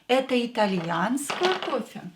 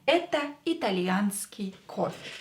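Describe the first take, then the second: First: It has the intonation of a question. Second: It has the intonation of a statement. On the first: It asks whether this is Italian coffee. "Use your intonation" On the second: It states that this is Italian coffee. "This is an Italian coffee statement"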